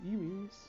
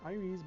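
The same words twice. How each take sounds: First: The name has a non-English pronunciation. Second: The name has an English pronunciation. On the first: The speaker calls it right. "it should be Iris" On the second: The speaker calls it wrong. "the English version is Iris"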